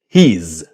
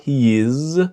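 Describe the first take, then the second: First: It is said as one syllable. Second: It is said as two syllables. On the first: "he's, one syllable" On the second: "not he is"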